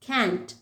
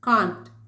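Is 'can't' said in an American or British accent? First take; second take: American; British. First: It is said with an American English vowel. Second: It is said with a British English vowel. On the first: "American English எப்படி சொல்லுவாங்கன்னா" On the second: "இதெல்லாமே British"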